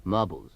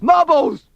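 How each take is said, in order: First: Said in the usual way. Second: Word bursts into a high yell; losing control. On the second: Acted. Newsreader loses his grip, yelling the word marbles. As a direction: blurt MARBLES as a loud shriek. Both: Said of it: "Sorry, that should be marbles".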